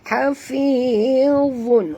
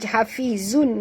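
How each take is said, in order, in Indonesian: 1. Konsonan di tengah adalah bunyi yang tebal dan berat. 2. Konsonan di tengah adalah bunyi z yang tipis. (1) "Zun di sini tebal" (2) "jangan baca hafizun, Kalau zun huruf zai"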